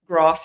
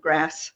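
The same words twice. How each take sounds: First: It is said with a South African accent. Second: It is said with an American accent.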